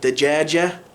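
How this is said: The word is said with J sounds. This is the standard form. "instead of saying dajaja for like chicken"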